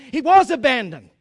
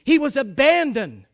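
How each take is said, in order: First: "was" punched louder than the rest; stress on WAS. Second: "abandoned" set out deliberately after a pause; emphatic repeat. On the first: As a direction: hit "was" hard to correct mere feeling. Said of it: "not only did he feel abandoned". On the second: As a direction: let "abandoned" land as a solemn restatement. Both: Real, not acted.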